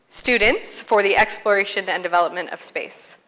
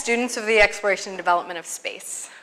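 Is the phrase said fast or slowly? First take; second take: slowly; fast. First: The phrase is said slowly. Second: The phrase is said quickly. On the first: "Say it slowly" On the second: "I try to say it really fast"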